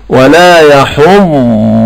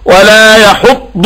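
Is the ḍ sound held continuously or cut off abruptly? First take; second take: continuous; cut off. First: The ḍ sound is soft and flows without stopping. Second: The ḍ sound is tense and stops abruptly. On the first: The speaker calls it right. "كن هينا لينا وقل ولا يحض... هذا الصوت يسمعنا الضاد لا ينقطع تماما" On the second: The speaker calls it wrong. "ما تقولش ولا يحض على، يحض انت كده بتصرح"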